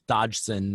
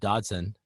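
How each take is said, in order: First: The name is said slowly with careful enunciation. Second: The name is said quickly and casually. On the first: The speaker calls it right. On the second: The speaker calls it wrong.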